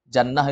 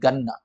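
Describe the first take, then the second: First: The word starts with a j sound. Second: The word starts with a hard g sound. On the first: This is the standard form of the word. "Jannah itu sebenarnya" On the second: This is how Arabs commonly say it today.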